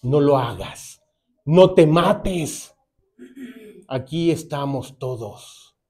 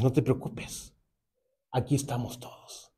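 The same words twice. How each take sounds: First: Slow, drawn-out pleading call; Paul pleading slowly with the jailer; urgent plea to stop. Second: Softer, gentle comforting words; calm him down quietly; Paul gently reassuring the kneeling jailer; soft reassurance. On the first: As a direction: drag out each word to hold him back. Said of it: "Pablo le grita". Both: Retold or imitated.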